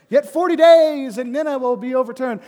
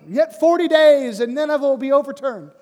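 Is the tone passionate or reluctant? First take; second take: passionate; passionate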